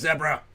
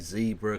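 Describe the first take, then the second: First: It is said with a British pronunciation. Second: It is said with an American pronunciation.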